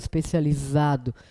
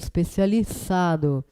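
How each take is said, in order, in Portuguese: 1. A consoante é um z de zumbido. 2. A consoante é um s de chiado. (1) "eu não falo especializado" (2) "eu falo especializado, tá? Com S"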